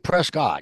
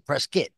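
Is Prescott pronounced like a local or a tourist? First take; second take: tourist; local. First: Prescott is pronounced the way a tourist says it. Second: Prescott is pronounced the way a local says it. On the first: The speaker is an outsider to the area. The speaker calls it wrong. "You don't say Prescott. ... Or else you sound like a tourist" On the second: The speaker belongs to the area. The speaker calls it right. "You got to say Prescott"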